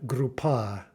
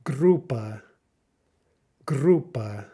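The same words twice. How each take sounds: First: Grupa stressed on the final PA, drawn out; wrong-syllable stress. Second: Grupa with a strong, long GRU, then a falling weak ending; stressed first syllable. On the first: Teacher showing students a misplaced stress, final syllable stressed. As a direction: put the weight on the end of grupa, gru-PA. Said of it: "not grupa". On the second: Teacher modelling Russian stress for students, emphatic first syllable. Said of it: "nail down that stress". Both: Shown as a demonstration.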